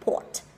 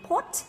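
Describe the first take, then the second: First: The pitch is low and deep. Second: The pitch is high and rises. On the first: The speaker calls it right. "mà là port" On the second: The speaker calls it wrong. "Chứ người ta sẽ không đọc thành port, tức là dấu sắc đi lên đâu"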